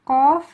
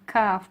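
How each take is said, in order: First: "qaf" loud, round-mouthed, from the back of the throat; deep qaf. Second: "kaf" with a flat mouth, light like English k. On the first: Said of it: "This one is with a round mouth". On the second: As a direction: keep "kaf" flat and forward. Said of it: "This one is kaf with a flat mouth". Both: Shown as a demonstration.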